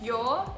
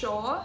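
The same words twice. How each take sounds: First: It starts with a 'y' sound. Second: It starts with a 'sh' sound. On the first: "it's not yo" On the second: "it's yo"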